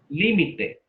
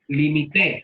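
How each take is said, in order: First: The stress is on the first syllable. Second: The stress is on the last syllable. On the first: "Como esdrújula" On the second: "Limité, lleva acento en la E. Es agudo"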